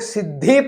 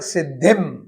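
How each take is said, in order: First: The word ends with a bare vowel. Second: The word ends with a nasal 'm' sound. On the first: The speaker calls it wrong. "उसे लोग सिद्धि पढ़ देते हैं, ... उसे पढ़ना भूल जाते हैं।" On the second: The speaker calls it right. "सिद्धिम यह पूर्ण उच्चारण वाला शब्द है।"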